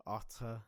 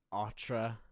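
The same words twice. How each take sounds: First: "Autre" with an attempted French throaty r; attempted French pronunciation. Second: "autre" with a plain English tr; anglicised pronunciation. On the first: Learner attempting a hard word, "Autre" with a tentative French r. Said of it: "I can't get that right". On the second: Learner showing how other places say it, "autre" with an English-sounding tr. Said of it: "but with a French accent". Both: Shown as a demonstration.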